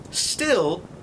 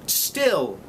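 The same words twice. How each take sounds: The two takes are said the same way.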